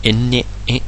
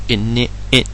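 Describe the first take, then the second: No difference in how they are said.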